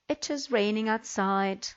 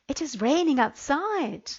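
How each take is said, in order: First: It is said plainly, without strong feeling. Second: It is said excitedly, with strong feeling. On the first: The speaker calls it wrong. "the intonation was all wrong" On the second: The speaker calls it right. "I will read them correctly"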